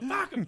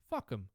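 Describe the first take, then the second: First: It is said at a louder volume. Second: It is said at a quieter volume.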